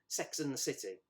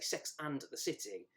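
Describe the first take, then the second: First: The word 'and' is reduced to a weak sound. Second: The word 'and' is said in full. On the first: "you don't really pronounce the word and" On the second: "You never really say"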